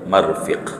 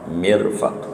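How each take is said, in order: First: The first vowel is a, the second i. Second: The first vowel is i, the second a. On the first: The speaker calls it wrong. "ketimbang dibalik marfiq" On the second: The speaker calls it right. "Mirfaq dibaca dengan kasrah mim dan fathah fa-nya"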